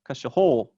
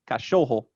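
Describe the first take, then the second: First: The stress is on the last syllable. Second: The stress is on the middle syllable. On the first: "If it was on the last syllable, it would sound like" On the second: "But it's on the second syllable"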